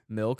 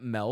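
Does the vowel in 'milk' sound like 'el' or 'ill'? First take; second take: ill; el. First: The vowel sounds like the 'i' in 'ill'. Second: The vowel sounds like the 'e' in 'el'. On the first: The speaker calls it right. "Just like it's milk" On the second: The speaker calls it wrong. "not milk"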